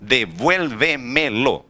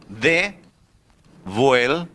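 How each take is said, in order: First: Devuelve-me-lo said whole and slowly, falling at the end; slow full word. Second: Devuelve-me-lo stretched very slowly, ending on a rise; slow sounding out. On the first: Teacher repeating devuelve-me-lo to the class, slow and falling. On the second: Teacher presenting devuelve-me-lo to the class, stretched and rising. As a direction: drag out devuelve-me-lo, voice rising at the end. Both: Shown as a demonstration. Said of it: "aqui a palavra".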